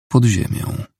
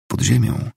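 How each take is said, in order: First: "Pod ziemią" as a falling statement; plain answer. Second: "Pod ziemią" with a rise at the end; puzzled "Pod ziemią?", lifting on ziemią; questioning echo. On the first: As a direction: answer "Pod ziemią", pitch dropping at the end. Answer in a narrated dialogue. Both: A narrator's reading.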